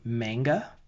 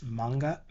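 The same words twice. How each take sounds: First: The a vowel is an American-style a. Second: The a vowel is a Japanese-style a. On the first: The speaker calls it wrong. "we cringe at people saying manga" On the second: The speaker calls it right. "really it's manga because the a in Japanese is a"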